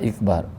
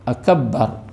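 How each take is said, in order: First: The word begins with an i vowel. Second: The b sound is doubled and held. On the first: "dia tambah huruf alif tu dia jadi kasrah" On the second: "jika ditasdikkan huruf ba pada akbar"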